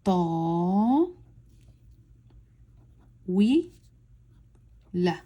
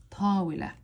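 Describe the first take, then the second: First: "ta, wi, la" stretched, with long gaps between syllables; as slow as possible. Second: Said in the usual way. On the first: Shown as a demonstration. Teacher reading for novice learners, as slowly as possible. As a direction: say "ta", "wi", "la" extremely slowly, each alone. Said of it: "as slowly as possible". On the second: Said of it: "read it out loud".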